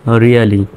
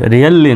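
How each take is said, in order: First: "really" with one short l, ria-li; correct single L. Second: "really" with a long double l, rial-li; wrong doubled L. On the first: Teacher corrects to a single l in "really". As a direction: say "really" with the l said only once. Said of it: "একটা এলেরই উচ্চারণ হবে". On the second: Teacher shows learners what not to say, "really" with doubled l. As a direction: say "really" holding the l as two. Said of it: "really নয়". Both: Shown as a demonstration.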